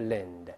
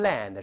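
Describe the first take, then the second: First: The syllable is said lightly and weakly. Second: The syllable is said fully, with weight. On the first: The speaker calls it right. "在这轻读" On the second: The speaker calls it wrong. "不是land"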